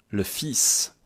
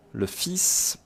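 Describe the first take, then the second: First: "fils" said fis, no l sounded; model pronunciation. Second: "Le fils" again, higher, fis with silent l; model pronunciation. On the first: Teacher modelling "Le fils" to students, fis with silent l. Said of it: "Attention à la prononciation". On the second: Teacher repeats "Le fils" to class, fis, silent l. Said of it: "je prononce comme ça". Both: Shown as a demonstration.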